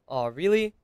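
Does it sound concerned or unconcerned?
concerned. It sounds worried and concerned.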